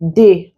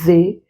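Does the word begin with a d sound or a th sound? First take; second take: d sound; th sound. First: The word begins with a hard d sound. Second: The word begins with a voiced th sound. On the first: The speaker calls it wrong. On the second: The speaker calls it right.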